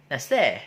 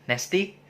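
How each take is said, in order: First: Nasty said as "nesteh", flat short vowels; Yorkshire nasty. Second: Said in the usual way. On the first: Shown as a demonstration. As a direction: end nasty on an open "eh". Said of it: "they gonna say". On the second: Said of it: "when they wanna say".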